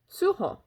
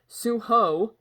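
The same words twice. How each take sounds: First: The name has a Korean-style pronunciation. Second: The name has an English-style pronunciation. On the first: The speaker calls it right. "that's suho" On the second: The speaker calls it wrong. "Not suho"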